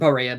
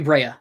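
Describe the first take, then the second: First: A vowel separates the B from the R. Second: The B runs straight into the R. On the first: The speaker calls it wrong. "not Berea" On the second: The speaker calls it right. "Brea with a B R"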